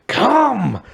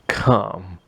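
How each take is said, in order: First: It is said very loudly, almost shouted. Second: It is said at a moderate, quieter volume.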